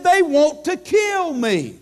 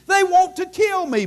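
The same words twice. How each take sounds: First: Raised, slow, pleading retelling of Paul; urgent Paul quote. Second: Even higher, urgent repeat of the plea; climbing Paul quote. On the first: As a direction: lift the voice as Paul's fear. Preacher voicing Paul in danger. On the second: Preacher repeating Paul's fear, pitched higher and more urgent. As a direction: push the repeat up a step. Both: Retold or imitated.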